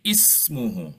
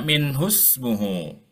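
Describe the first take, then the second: First: The word begins with an audible i vowel. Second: The opening vowel is dropped, joined to the word before. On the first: "kalau kita mau ibtidak dari sini menjadi ismuhu" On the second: "kalau kita mau wasol di sini ... hamzah wasolnya nggak dibaca"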